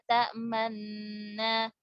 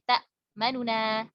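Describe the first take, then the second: First: No vowel is heard; the n sounds merge. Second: A short, partial vowel is heard between them. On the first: "Tapi cuma isyarat aja" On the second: "Jadi nun yang domahnya ini sedikit dibaca"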